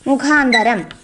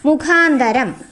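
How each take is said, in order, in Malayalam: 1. മൂന്നാമത്തെ അക്ഷരത്തിൽ 'a' സ്വരമാണുള്ളത്. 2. മൂന്നാമത്തെ അക്ഷരത്തിൽ 'a' സ്വരമാണുള്ളത്.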